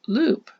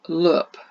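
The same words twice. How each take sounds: First: The vowel is the long sound of tooth. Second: The vowel is the short sound of book. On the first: The speaker calls it right. "let's try it with ooh, our second oh oh sound" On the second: The speaker calls it wrong. "the one we learned last week... Does that sound right? No"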